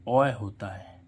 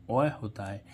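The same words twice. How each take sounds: The two takes are said the same way.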